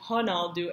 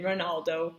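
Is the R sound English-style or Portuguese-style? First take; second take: Portuguese-style; English-style. First: The R is said the Portuguese way. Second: The R is said as an English R. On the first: The speaker calls it right. "the Portuguese pronunciation" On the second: The speaker calls it wrong. "not saying it Ronaldo with the R sound"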